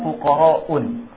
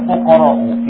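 First: The word ends with an added n sound. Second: The word ends in a vowel without n. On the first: The speaker calls it wrong. "Tidak boleh membaca fuqara'un" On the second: The speaker calls it right. "Yang benar adalah fuqara'u"

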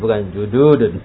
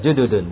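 First: The vowel after the d is long. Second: The vowel after the d is short. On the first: The speaker calls it wrong. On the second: The speaker calls it right. "dalnya enggak panjang?"

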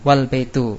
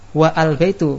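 First: The 'wa' runs straight into 'l' without a vowel. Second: A separate 'a' sound is spoken after 'wa'. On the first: The speaker calls it right. "ditambah wawu menjadi wal baitu" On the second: The speaker calls it wrong. "bukan wa al baitu. Kalau wa al baitu salah"

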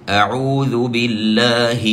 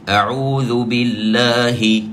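The two takes are said the same way.

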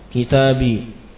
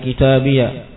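First: The word ends in a plain long i sound. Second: The word ends in an added ya syllable. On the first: "Yang pertama disukun" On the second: "Yang kedua dia di fathah ya-nya"

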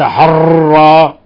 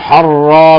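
First: The r is trilled heavily, several times. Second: The r is trilled lightly, only once. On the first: The speaker calls it wrong. "وليس حرا" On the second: The speaker calls it right. "لاحظوا حرا"

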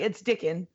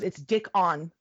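First: The last syllable is reduced and unemphasized. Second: The last syllable is said fully and with emphasis. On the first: "instead of just being like" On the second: "he emphasizes it so much"

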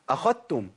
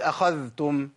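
First: The dh sound is fully merged into the t. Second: The dh sound is clearly pronounced before the t. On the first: This is the reading of another transmission line. "بإدغام الذال في التاء بالكلية" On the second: This is the reading of one transmission line. "الإمام حفص يقول أخذتم"

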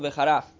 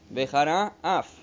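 First: The two words are run together into one. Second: The two words are kept clearly separate. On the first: The speaker calls it wrong. "non Veharaf, che vuol dire un'altra cosa" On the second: The speaker calls it right. "Quindi scandendo bene. Esattamente"

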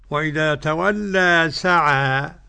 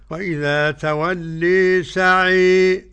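First: The final vowels are open 'a' sounds. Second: The final vowels lean strongly toward 'e'. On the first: "ده الفتح" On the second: "الإمالة الكبرى"

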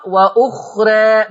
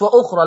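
First: The final vowel is tilted slightly toward e. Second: The final vowel is fully open like a. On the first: The speaker calls it right. "لذلك تقرأ وأخرى" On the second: The speaker calls it wrong. "لو قلتي وأخرى يبقى فتحتيها"

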